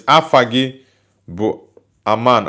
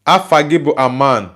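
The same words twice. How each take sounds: First: Afagibu spelled out slowly, afa-gebo, then Aman; slow Igbo demo. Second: Afagibu Aman said as afa-gebo aman in Igbo; Igbo phrase. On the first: Teaching a viewer the Igbo phrase, slowly and carefully. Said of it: "that's my local dialect". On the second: To a viewer, his name phrase in Igbo, said naturally. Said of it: "Say in African language, 'My name is Aman.'". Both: Shown as a demonstration.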